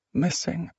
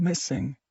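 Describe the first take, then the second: First: Echoing whisper. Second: Fading echo. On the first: Word echoing in her head. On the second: Word echoing, fading away. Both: Acted.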